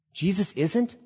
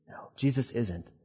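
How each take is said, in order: First: "isn't" lifted into a rising question. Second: Soft, falling answer on "isn't"; quiet confirmation. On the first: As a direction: ask "Jesus isn't" as if checking, ending high on "isn't". Echoing own claim as question. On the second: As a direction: answer yourself softly, letting "isn't" drop. Answering own echoed question. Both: Acted.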